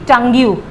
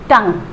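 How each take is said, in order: First: The word ends with an extra 'yoo' sound. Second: The word ends with no extra vowel sound. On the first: The speaker calls it wrong. "It will not be टंग यू" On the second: The speaker calls it right. "यू को silent रखेंगे"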